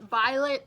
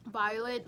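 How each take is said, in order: First: Violet called out loud and bright; louder call of her name. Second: Said in the usual way. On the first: Real, not acted. Calling the student's name louder.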